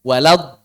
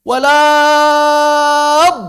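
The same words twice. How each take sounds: First: Walad said quickly with the vowel unstretched; short walad. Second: Walad with the a stretched long and loud; drawn-out walad. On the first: Teacher gives the right short reading of walad, brief and light. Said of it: "Madnya nggak dibaca". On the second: Teacher shows the wrong lengthened reading of walad, loud and stretched. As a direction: hold the long vowel in walad, rising. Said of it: "Gimana caranya ditambahnya?". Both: Shown as a demonstration.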